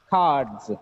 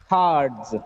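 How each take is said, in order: The two takes are said the same way.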